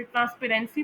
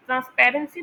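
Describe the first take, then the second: First: ट्रांसपेरेंसी with the stress off पैर; wrong pronunciation. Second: ट्रांसपेरेंसी with stress on पैर; corrected pronunciation. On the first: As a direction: misplace the weight onto "REN" in ट्रांसपेरेंसी. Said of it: "इसे ट्रांसपेरेंसी pronounce नहीं करते". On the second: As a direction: lean on "PAR", hurry the rest of ट्रांसपेरेंसी. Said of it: "तो इसे ट्रांसपेरेंसी pronounce करते हैं". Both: Shown as a demonstration.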